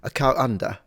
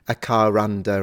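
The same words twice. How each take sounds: First: A glottal stop separates 'car' from 'under'. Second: An R sound links 'car' to 'under'. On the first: "you could substitute it with a glottal stop" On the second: "people either pronounce the R when it's followed by a vowel"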